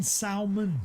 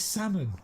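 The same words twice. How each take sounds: First: "salmon" with the L sounded, sal-mun; "salmon" spoken as sal-mon with a clear L; mock L pronunciation. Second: Said in the usual way. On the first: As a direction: say "salmon" pronouncing the L like chat does. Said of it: "It's not pronounced salmon". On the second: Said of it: "That's how you pronounce it".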